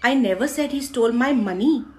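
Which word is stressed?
money. The stress falls on the word money. Something other than money was stolen. "पैसे नहीं"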